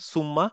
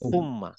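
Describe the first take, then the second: First: The word begins with an s sound. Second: The word begins with a th sound. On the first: The speaker calls it wrong. "এটা সবাই আগে বলতাম আমরা বাংলাদেশে সুম্মা" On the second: The speaker calls it right. "আসলে সুম্মা না, এটা হবে হচ্ছে ফুম্মা"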